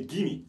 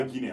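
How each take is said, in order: First: "Guinea" as GHI-nee, the A silent; Guinea ending in ee. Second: "Guinée" ending in a French é. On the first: Teacher shows how we say Guinea, ending in ee. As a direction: drop the A sound from "Guinea". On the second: Teacher shows what not to say, French é ending. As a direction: say "Guinée" as ghee-NAY. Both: Shown as a demonstration. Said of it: "On dit pas Guinée".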